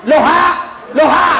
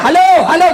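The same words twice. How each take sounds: First: "Loha, loha" shouted high and earnest, the syllables of halo swapped; reversed hello shout. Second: High, loud hello into the wrong end; shouting. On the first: Old man turns hello backwards at the phone, shouting high. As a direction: yell "Loha" as if it fixes the phone. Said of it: "Langsung dia bilang ni". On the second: Old man shouting hello into the earpiece, loud and high. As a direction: yell it, phone held upside down. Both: Retold or imitated.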